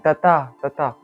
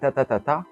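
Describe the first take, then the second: First: The second beat is the loudest. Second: The last beat is the loudest. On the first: "le deuxième est tapé fort" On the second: "le dernier est tapé plus fort"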